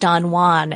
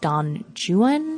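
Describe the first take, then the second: First: The name is said with a Spanish pronunciation. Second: The name is said with an English pronunciation. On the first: This is the foreign pronunciation of the name. The speaker calls it wrong. "which I keep thinking is Don Juan" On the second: The poem's rhymes force this anglicized pronunciation. The speaker calls it right. "Sarah keeps insisting because of the rhyme scheme was Don Juan"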